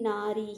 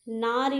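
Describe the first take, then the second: First: नारी with a held final 'ee'; long final vowel. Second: नारी cut short on the final i; short final vowel. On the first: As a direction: stretch the end of नारी. (नारी का अंत लंबी 'ई' पर) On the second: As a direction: say नारी as 'naari', ending brief. (नारी का अंत छोटी 'इ' पर) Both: Shown as a demonstration. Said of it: "नारी नहीं".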